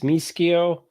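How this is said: The name is said with an Italian pronunciation. This is how the name is said in Italy. "when you're in Italy"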